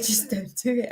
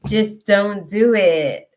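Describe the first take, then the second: First: Laughing repeat. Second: Slow, loud, each word stressed; slow emphatic warning. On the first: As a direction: toss it off laughing. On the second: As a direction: hammer each word home. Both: Real, not acted.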